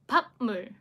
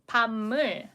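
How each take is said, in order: First: The first syllable ends in a stopped p sound. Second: The first syllable ends in a nasal m sound. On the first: The speaker calls it wrong. "Number three" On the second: The speaker calls it right. "Number two, we'll need to convert it into um, um sound"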